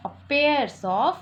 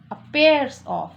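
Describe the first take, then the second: First: Pairs stretched very slowly, its s drawn out; slow stress on pairs. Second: Said in the usual way. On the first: Shown as a demonstration. Teacher to class, drags out pairs to point at its s. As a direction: crawl through pairs so the s is heard. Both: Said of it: "यहाँ क्या लग जाएगा, s लग जाएगा".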